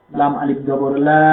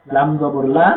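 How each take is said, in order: First: লা stretched one alif long; long vowel. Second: লা said short, with no pull on the vowel. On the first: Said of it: "এটা টানতে হবে". (লা এক আলিফ টেনে) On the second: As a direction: clip the লা quickly, no stretch. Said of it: "এটা টানা যাবে না". (লা ছোট করে, টান ছাড়া) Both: Shown as a demonstration.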